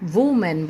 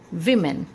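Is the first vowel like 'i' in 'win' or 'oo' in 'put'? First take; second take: oo; i. First: The first vowel is an 'oo' sound. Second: The first vowel is an 'i' sound. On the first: The speaker calls it wrong. "बहुत सारे लोग इसे वुमेन, वुमेन बोलते हैं" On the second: The speaker calls it right. "इसका सही pronunciation है विमेन"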